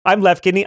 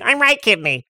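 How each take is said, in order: First: Raised, friendly creature voice; left kidney. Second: High creature voice with a head cold; stuffed-up right kidney. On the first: Left kidney introducing itself to visitors, friendly. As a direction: introduce yourself as a chirpy little organ. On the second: Right kidney introducing itself to visitors, stuffed with a cold. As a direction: sound congested, pitched well up. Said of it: "Right kidney has a cold". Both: Acted.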